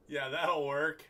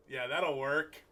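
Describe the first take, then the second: No difference in how they are said.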